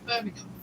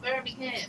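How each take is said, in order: First: It is said in a Southern English accent. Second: It is said in an American accent.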